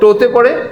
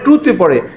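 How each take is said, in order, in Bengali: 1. প্রথম স্বরধ্বনিটি 'oh'-এর মতো শোনায়। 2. প্রথম স্বরধ্বনিটি 'oo'-এর মতো শোনায়। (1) "টু কেউ টু কে টো বলে?" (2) "সবাই বলে"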